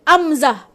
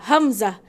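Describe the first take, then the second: First: The word starts straight on the vowel. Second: The word starts with a clear h sound. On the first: The speaker calls it wrong. "Bukan amzah" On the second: The speaker calls it right. "Macam orang nama Hamzah. Ha, H kan depan dia"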